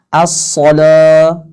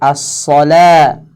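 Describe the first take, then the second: First: The L is pronounced heavy and thick. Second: The L is pronounced light and thin. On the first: The speaker calls it wrong. "Jangan ... seolah-olah uh, dijadikan tebal" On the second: The speaker calls it right. "dengan la yang tipis"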